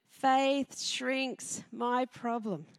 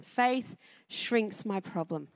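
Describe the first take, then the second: First: "Faith shrinks my problem" drawn out even slower, stress on Faith; even slower emphatic repeat. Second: "Faith shrinks my problem" said slowly and quietly, each word weighted; slow emphatic statement. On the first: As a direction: repeat it very slowly, landing on Faith. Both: Shown as a demonstration. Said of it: "That's number one".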